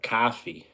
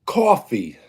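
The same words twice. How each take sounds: First: "coffee" Massachusetts-style, as cah-fee; Massachusetts-type "coffee", open first vowel; Massachusetts-type accent. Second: "Coffee" in a New York accent, as cawfee; New York "Coffee" with a rounded aw vowel. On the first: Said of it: "like Massachusetts type of, uh, accent". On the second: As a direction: say "Coffee" the Brooklyn, Long Island way. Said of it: "That's how I say". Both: Shown as a demonstration.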